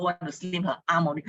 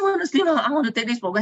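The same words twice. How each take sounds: First: Said in the usual way. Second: High, loud mock repeat of her request; echoing the friend's request, high and loud in disbelief. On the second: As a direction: parrot her wish back in disbelief. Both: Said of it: "I said".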